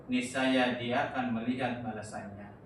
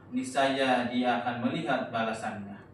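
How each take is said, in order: The two takes are said the same way.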